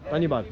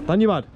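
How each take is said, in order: First: Said in the usual way. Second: A louder, punchier thank you, bud; louder retake. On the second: Shown as a demonstration. Redoing the thanks to camera, louder. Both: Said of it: "we've got to do it again".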